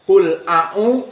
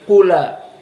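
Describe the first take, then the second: First: The glottal stop after qul is kept. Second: The glottal stop is dropped, its vowel moves to l. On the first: This is the reading of most reciters. "qul a'u jadi qula" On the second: This is the reading of Warsh. "hamzahnya dihapus ... menjadi qula"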